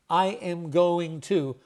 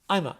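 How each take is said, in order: First: Every word is said fully and separately. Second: The words are squeezed into two short syllables. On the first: "Instead of saying" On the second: "a lot of people now just say"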